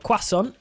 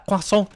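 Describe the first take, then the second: First: It is said with a British pronunciation. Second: It is said with a French pronunciation. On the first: "as the uh, Brits say" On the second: "as uh, as the French say"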